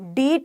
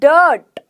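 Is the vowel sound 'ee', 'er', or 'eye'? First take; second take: ee; er. First: The vowel is a long 'ee' sound. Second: The vowel is an 'er' sound. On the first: The speaker calls it wrong. "डीट नहीं बोला मैंने" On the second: The speaker calls it right. "क्या बोला? डर्ट"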